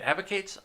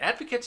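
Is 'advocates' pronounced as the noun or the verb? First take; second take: verb; noun. First: The word is pronounced as the verb form. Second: The word is pronounced as the noun form. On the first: The speaker calls it wrong. "I used uh, that as a verb, not a noun" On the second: The speaker calls it right. "let me read that with that as a noun"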